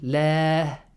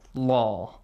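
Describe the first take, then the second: First: The l is light with a clear ah vowel. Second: The l is heavy with a deep aw vowel. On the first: A kasra comes right before the word. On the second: A fatha or dhamma comes right before the word. "make an aw sound with the word Allah"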